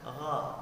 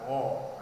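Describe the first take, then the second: First: The lips are spread as in a smile. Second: The lips are pushed forward and rounded. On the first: The speaker calls it right. "Mulut kita tetap sambil tersenyum" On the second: The speaker calls it wrong. "jangan mulut kita menghadap ke depan. ... ini bacaan yang salah"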